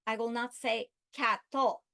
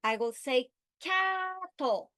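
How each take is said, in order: First: Said in the usual way. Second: Cattle with CA lifted, drawn out; cattle stressed high and slow. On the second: Shown as a demonstration. Teacher modeling correct stress on cattle. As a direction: say cattle slowly, pitch up on CA.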